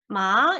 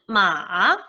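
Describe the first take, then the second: First: The pitch rises upward through the syllable. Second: The pitch dips down and then rises. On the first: "이성은 올려주는 의미였죠. 마 이렇게 올려주면 됩니다" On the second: "삼성은 내려갔다 올라가는 음"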